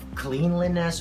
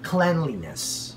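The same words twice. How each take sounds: First: The first syllable sounds like 'clean'. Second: The first syllable sounds like 'clen'. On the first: The speaker calls it wrong. "We don't read the word clean in here" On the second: The speaker calls it right. "So we say cleanliness"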